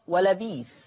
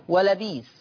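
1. الكلمة الأخيرة فيها ياء مدّ طويلة في الوسط. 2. الكلمة الأخيرة فيها ياء مدّ طويلة في الوسط.

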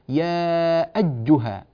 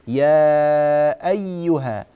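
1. صوت y يُضغط فيصير صوت j. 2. صوت y يبقى ياءً خفيفة مفتوحة. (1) "تنقلب الياء إلى جيم كأنها يا أجها" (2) "لا تلصق اللسان في الأعلى تماما"

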